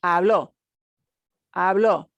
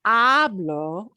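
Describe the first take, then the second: First: Hablo with the last O punched, as in habló; stress on the final O. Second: Said in the usual way. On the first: Shown as a demonstration. Teacher contrasting stress for students, punching the O. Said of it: "you have to punch that O at the end". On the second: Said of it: "This is not the O of hablo".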